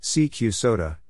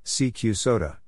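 The two takes are said the same way.

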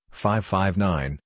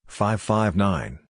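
The two takes are said the same way.

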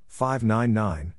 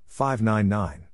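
The two takes are said the same way.

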